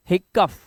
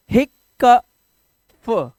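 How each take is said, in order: First: Said in the usual way. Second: हिकफ drawn out slowly in pieces, हिक-क-फ; loud, slow sounding-out of हिकफ, part by part; broken into sounds. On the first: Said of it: "तो ये हो गया". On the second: Shown as a demonstration. Teacher building a word from consonants, broken into sounds. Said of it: "पहले वाले से आधा का".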